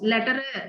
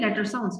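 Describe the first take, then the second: First: An extra 'uh' is added after the first word. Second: The two words are said without an extra vowel. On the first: The speaker calls it wrong. "it will not look good" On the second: The speaker calls it right. "it has to say letter sounds"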